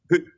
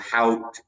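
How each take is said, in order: First: The word rhymes with boot. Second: The word rhymes with out. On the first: The speaker calls it right. "it's Hoot, right?" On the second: The speaker calls it wrong. "or Hout"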